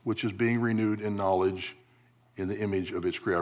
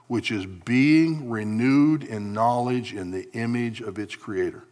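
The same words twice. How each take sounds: First: The phrase is read quickly. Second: The phrase is read slowly. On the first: The speaker calls it wrong. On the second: The speaker calls it right.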